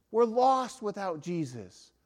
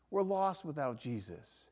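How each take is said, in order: First: We're lost stressed, slow; slow emphatic declaration. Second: We're lost without Jesus repeated softly; hushed echo of the line before; quiet echo. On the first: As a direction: land We're with weight, slowly. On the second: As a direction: let the repeat fall soft. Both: Shown as a demonstration. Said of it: "repeated softer".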